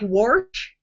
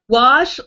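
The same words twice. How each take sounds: First: The word is said with an R sound. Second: The word is said without an R sound.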